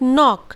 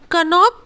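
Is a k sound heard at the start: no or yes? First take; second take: no; yes. First: It starts directly with the n sound. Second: It starts with a k sound before the n. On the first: The speaker calls it right. "we call it knock" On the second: The speaker calls it wrong. "कनॉक कभी नहीं बोलते हैं"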